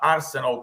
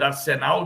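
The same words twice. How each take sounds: First: The name is pronounced with English sounds. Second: The name is pronounced with Spanish sounds. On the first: "como se diz em Londres" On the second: "como se diz na, na Argentina"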